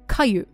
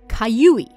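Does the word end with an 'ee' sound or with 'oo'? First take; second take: oo; ee. First: The word ends on 'oo' without 'ee'. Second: The word ends with a final 'ee' sound. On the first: The speaker calls it wrong. "not Kayu" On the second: The speaker calls it right. "it's actually Kayui"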